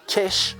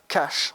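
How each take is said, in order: First: It is said in a South Island New Zealand accent. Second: It is said in a standard English accent. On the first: "on dit cash" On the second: "On ne dit pas cash"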